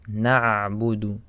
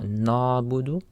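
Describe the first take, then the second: First: "na'budu" slowly with throat-squeezed ayn; clear ayn. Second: "na'budu" as a smooth "naa-budu"; missing ayn. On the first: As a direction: hold the throaty ayn before "budu" in "na'budu". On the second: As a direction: mispronounce "na'budu" with no throat sound. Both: Shown as a demonstration. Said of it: "Again, for the ayn".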